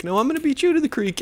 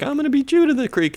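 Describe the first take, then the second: First: Quick high falsetto comeback; mock kid retort. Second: Fast, high falsetto; mock racing kid. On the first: Second kid answering the bike challenge, fast mock falsetto. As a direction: fire back as the rival kid, fast and high. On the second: Kid challenging the other on bikes, fast mock falsetto. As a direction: rattle off a kid's challenge in falsetto. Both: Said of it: "they're like".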